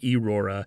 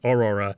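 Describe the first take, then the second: First: The name begins with an 'eh' sound. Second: The name begins with an 'aw' sound. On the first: The speaker calls it wrong. "he constantly mispronounces Aurora's name. He usually says like Erora" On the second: The speaker calls it right. "the Aurora is constantly correcting him. It's Aurora"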